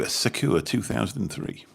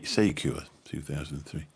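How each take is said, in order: First: Sakura read quickly as "suh-koo-ruh", first syllable barely there; first reading of a username. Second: Sakura re-said as "SAY-kyoo-ruh", a clear, full first syllable; corrected username reading. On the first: Greeting viewer Sakura on stream, first quick misreading of the name. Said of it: "Sa-, Sakura two thousand and three". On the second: Greeting viewer Sakura on stream, careful corrected re-reading of the name. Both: Shown as a demonstration.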